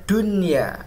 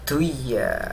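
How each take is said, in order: First: The n sound is clearly pronounced. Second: The n sound is dropped into the y. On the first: The speaker calls it right. "izhar mutlak" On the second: The speaker calls it wrong. "bukan dibaca duya"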